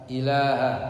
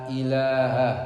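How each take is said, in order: No difference in how they are said.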